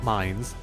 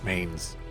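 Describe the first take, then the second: First: The name is said to rhyme with 'lines'. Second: The name is said to rhyme with 'lanes'. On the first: The speaker calls it wrong. "Not mines" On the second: The speaker calls it right.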